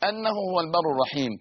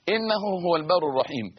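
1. تبدأ الكلمة الأولى بالصوت a. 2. تبدأ الكلمة الأولى بالصوت i. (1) "بفتح الهمزة" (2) "بكسر همزة"

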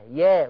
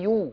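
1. يُنطق المقطع بحركة 'a'. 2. يُنطق المقطع بحركة 'u'. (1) "انت قلتي في البدايه قلتي ايه؟ يا" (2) "وهي يو"

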